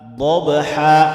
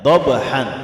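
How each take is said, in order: First: The word ends in a long a vowel. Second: The word ends in an n sound. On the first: This is how it is read when stopping. "Lalu kita baca dengan dhabha" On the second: This is how it is written. "Dhabhan katanya, lihat"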